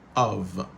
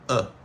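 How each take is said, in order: First: The word is said fully, ending in a v sound. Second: The word is reduced to a weak vowel only. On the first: "c'est comme ça que mot ça a prononcé, normalement" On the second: "les gains sont ça qui c'est E"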